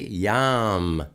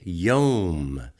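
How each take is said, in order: First: The vowel sounds like the 'a' in 'yam'. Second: The vowel sounds like the 'o' in 'home'. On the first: It means seas or darkness. The speaker calls it wrong. "we never say Yam" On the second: It means day. The speaker calls it right. "We say Yom"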